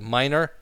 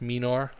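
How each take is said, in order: First: The first vowel sounds like the vowel in 'might'. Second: The first vowel does not sound like 'might'. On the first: The speaker calls it right. "it's minor, as in might" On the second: The speaker calls it wrong. "not minor, like a lot of our European cousins say"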